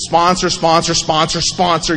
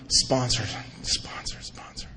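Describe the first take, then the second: First: Said in the usual way. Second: Each sponsor softer until only breath is left; sponsor, sponsor, sponsor, dropping from quiet voice to a bare whisper; fading to a whisper. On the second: Retold or imitated. Sponsor spoken to himself, fading from a murmur to a whisper. Repeating sponsor in his head.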